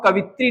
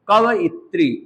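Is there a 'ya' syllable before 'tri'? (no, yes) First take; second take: no; yes. First: It is said with no 'ya' before 'tri'. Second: It is said with 'ya' before 'tri'. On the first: The speaker calls it wrong. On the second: The speaker calls it right.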